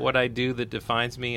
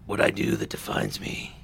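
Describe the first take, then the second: First: It is said in a normal speaking voice. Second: It is said in a gruff Batman voice.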